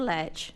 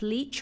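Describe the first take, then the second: First: Lech said with a short E, like "letch"; short E pronunciation. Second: Leach said with a long EE, like "leech"; long EE pronunciation. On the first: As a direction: say Lech to rhyme with fetch. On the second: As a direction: say Leach to rhyme with beach. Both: Shown as a demonstration. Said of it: "is this pronounced Leach or Lech".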